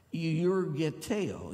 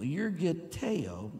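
First: Euergeteo said slowly, syllable by syllable; Greek word demo. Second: Euergeteo said slowly, stress on the final o; Greek word repeated. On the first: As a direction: spell out euergeteo slowly, stress on the o. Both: Shown as a demonstration. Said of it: "Accent on the O".

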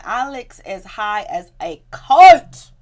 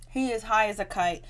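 First: Slow build to a very loud "kite"; spaced-out words, "kite" belted and stretched; emphatic exclamation. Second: Said in the usual way. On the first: Real, not acted. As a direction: draw out "kite" in a loud burst. Emphatic first take, repeated plainly after.

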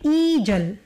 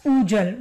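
First: Ijal, slow, starting with an i sound; smooth ijal. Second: Ujal with a clear u sound at the start; hard ujal. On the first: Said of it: "Instead of ujal, they make it ijal". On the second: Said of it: "you can't even pronounce this". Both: Shown as a demonstration.

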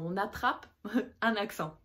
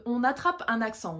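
First: Repeats the phrase with a laugh mid-line. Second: Said in the usual way. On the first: Shown as a demonstration. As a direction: laugh through the repeat of the point.

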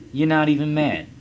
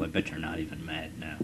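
First: Higher, louder mocking sing-song; mock taunt. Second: Said in the usual way. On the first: Taunting defeated Portugal, mock sing-song jeer.

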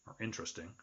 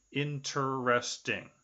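First: "interesting" said softer and quick as intresting; clipped three syllables. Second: "Interesting" spelled out slowly as in-ter-es-ting; full four syllables. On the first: Teacher to class showing the short three-syllable "interesting". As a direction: swallow the middle of "interesting". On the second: Teacher to class showing four syllables in "Interesting". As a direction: stretch "Interesting" into four clear beats. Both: Shown as a demonstration. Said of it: "those have three or four, uh, syllables".

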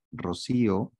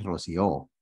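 First: Rocío with the stress on the middle í, ro-SÍ-o. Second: Rocío wrongly stressed on the last O, ro-sió; stress on final O. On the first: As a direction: lean on the í in Rocío. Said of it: "lleva tilde en la I". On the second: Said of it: "no lleva tilde en la O". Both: Shown as a demonstration.

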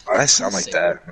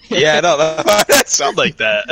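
First: A low, deepened take on his own voice; deep voice. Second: Slow, laughing through the words. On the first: Shown as a demonstration. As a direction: drop the voice low and flat. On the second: Real, not acted. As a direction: chuckle as you say it.

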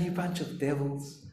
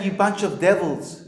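First: Much softer, hushed and sweet delivery; mock gentle. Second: Said in the usual way. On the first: Shown as a demonstration. Preacher asking whether Jesus rebuked people this way, mock gentle. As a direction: say the insult as a tender murmur. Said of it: "talking like that". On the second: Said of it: "when He was saying".

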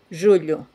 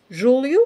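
First: "Julio" as Portuguese "julho", palatal lh, falling. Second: "Julio" as Portuguese "júlio", l plus i glide, rising. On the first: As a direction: model "Julio" with squashed palatal lh. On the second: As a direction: model "Julio" with a clear tongue-tip l. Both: Shown as a demonstration. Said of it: "las palabras Julio".

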